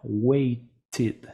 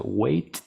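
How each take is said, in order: First: "waited" broken clearly into "wei-tid"; ED as extra syllable. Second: "Wait" with a loose extra T puff, "wait-t"; wrong doubled T. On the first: Teacher correcting the wrong form, two-syllable waited. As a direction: sound a full second syllable "tid" in "waited". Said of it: "no puedo tener otra T". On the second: Teacher testing a wrong past form, doubled final T. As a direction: say "Wait" and tack a voiceless T on the end. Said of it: "no, waited". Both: Shown as a demonstration.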